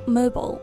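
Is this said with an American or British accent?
American. It is said with an American accent. "美式会读mobile"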